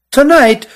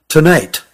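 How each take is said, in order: First: High-pitched, startled echo; "Tonight" as an incredulous high question; startled disbelief. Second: Said in the usual way. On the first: A narrator's reading. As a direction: throw TONIGHT back, pitched way up. Cousin repeats it in disbelief.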